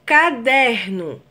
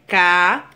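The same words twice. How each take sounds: First: Said in the usual way. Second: "caderno" split as ca, der, no; syllable by syllable. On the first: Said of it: "ou se separa a palavra caderno". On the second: Shown as a demonstration. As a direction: pause after each syllable of "caderno". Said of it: "se separa a palavra caderno".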